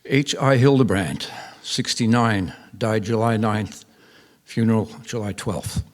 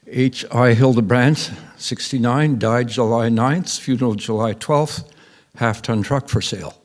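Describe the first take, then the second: First: Slow, item by item with falling ends; deadpan, slow obituary listing with full stops; terse obituary read. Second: Deadpan notice building to a tacked-on sale ad; rewritten obituary read. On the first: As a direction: read a bare notice, each fact closed off. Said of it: "that read". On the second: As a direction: keep each fact hanging, then land the last item deadpan. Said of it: "So she rewrote it". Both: Retold or imitated.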